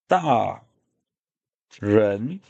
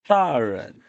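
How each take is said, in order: First: The second syllable has a full rising tone. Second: The second syllable is light and toneless. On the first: "The one is da ren" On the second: "here, there's no no um, tone"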